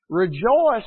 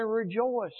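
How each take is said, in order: First: Loud ringing REJOICE; proclaimed. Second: Said in the usual way. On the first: Acted. Preacher proclaiming Paul's command to the church, loud. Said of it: "But he says". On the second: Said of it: "And again I say".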